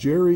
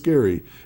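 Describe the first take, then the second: First: The name begins with a soft J sound. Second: The name begins with a hard G sound. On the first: The speaker calls it wrong. "it's not Jerry" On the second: The speaker calls it right. "it's Gary"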